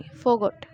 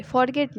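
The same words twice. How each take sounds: First: "forgot" said as the right word, falling firmly; correct form. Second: "forget" given as the wrong word, falling; wrong form. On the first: Teacher giving the right word forgot. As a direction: land "forgot" as the correct answer. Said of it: "Forgot बोलेंगे". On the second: Teacher marking the wrong word forget. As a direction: say "forget" as the mistake to avoid. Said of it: "forget नहीं". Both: Shown as a demonstration.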